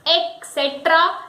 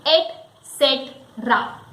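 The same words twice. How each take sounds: First: ET CETERA as ek-SET-ra; wrong pronunciation. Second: ET CETERA as et-SET-ra, slow and falling; correct pronunciation. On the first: Teacher quoting another wrong pronunciation. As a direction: begin ET CETERA with "ek". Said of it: "many people say it et cetera". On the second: Teacher giving the correct pronunciation, slowly. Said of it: "the correct pronunciation of E T C". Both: Shown as a demonstration.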